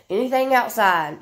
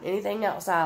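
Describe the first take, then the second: First: "anything outside" said higher and louder, with a falling ending; emphatic first take. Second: Said in the usual way. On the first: Real, not acted. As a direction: punch "anything outside" up high and loud, then let it fall.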